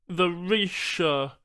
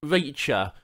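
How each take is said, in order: First: Reacher said slowly as Reesha, sh for ch; slow Reesha instead of Reacher; alien mispronunciation. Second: Reacher with a clear ch, a little louder; gentle correction. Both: Acted. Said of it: "Charl corrected subtly".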